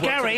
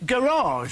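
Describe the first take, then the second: First: The word ends like cottage or village. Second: The word ends with a foreign-sounding ending. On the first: "Like garage" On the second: "rather than garage"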